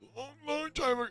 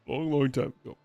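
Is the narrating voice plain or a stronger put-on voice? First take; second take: plain; put-on. First: It is read in a plainer, weaker character voice. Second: It is read in a stronger, put-on character voice. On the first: The speaker calls it wrong. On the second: The speaker calls it right.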